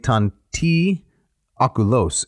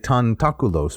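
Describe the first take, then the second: First: A short pause separates the two words. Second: The two words run together without a break. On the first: The break adds drama to the line. "this is a breathing spot. They don't elide" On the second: This is the usual elided reading. "normally we would say tantaculos. We'd run them together"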